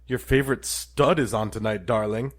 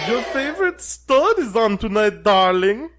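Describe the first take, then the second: First: It is spoken in the speaker's ordinary accent. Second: It is spoken with an attempted German accent.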